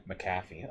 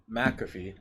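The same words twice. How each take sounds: First: McAfee with stress on the second syllable; soft self-correction, McAfee stressed on CAFF; corrected pronunciation. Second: McAfee with stress on the first syllable; alternate pronunciation. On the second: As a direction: say McAfee as MACK-uh-fee. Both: Shown as a demonstration. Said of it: "I fucked that up".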